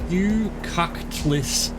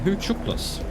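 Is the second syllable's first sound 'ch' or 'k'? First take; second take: k; ch. First: The second syllable begins with a 'k' sound. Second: The second syllable begins with a 'ch' sound. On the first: The speaker calls it wrong. "I don't know how you pronounce this in the slightest" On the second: The speaker calls it right. "Thank you for telling me how to pronounce it"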